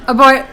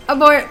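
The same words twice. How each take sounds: The two takes are said the same way.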